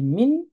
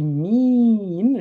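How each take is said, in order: First: The i vowel is short. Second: The i vowel is held long. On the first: The speaker calls it right. "j'ai dit mine" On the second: The speaker calls it wrong. "J'ai pas dit mine"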